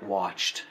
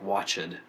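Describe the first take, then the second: First: The final past-tense ending is said softly. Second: The final past-tense ending is said strongly. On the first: The speaker calls it right. "pronounce it softer" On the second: The speaker calls it wrong. "instead of like"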